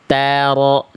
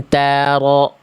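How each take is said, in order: First: The first consonant is thin and light. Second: The same.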